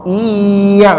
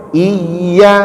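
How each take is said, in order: First: "Iya" drawn out level so the doubled y disappears; indistinct shaddah. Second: "Iya" lifted up, then brought down on the doubled y; clear shaddah. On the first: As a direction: slide through "Iya" evenly without lifting. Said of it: "nggak nampak itu". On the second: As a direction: make the double y in "Iya" stand out. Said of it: "Harus naik dulu ke atas, turun lagi". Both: Shown as a demonstration.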